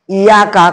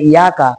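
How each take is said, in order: First: The y sound is held long and doubled. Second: The y sound is short and single. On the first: Only you. The speaker calls it right. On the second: Sunlight. The speaker calls it wrong.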